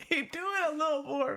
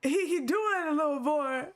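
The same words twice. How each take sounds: First: Said in the usual way. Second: Giggling through the words, pitched higher; barely holding it together with laughter; laughing. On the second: Real, not acted. Cracking up at the voice acting.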